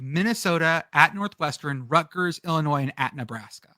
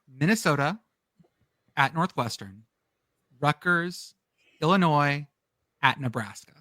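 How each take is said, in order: First: The list is said at normal speed. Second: The list is said slowly.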